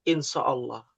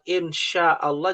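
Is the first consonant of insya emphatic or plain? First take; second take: emphatic; plain. First: The first consonant is a heavy, emphatic s sound. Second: The first consonant is a plain, light sh sound. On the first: The speaker calls it wrong. "Seakan-akan pakai shot" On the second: The speaker calls it right. "Harusnya kan pakai shin"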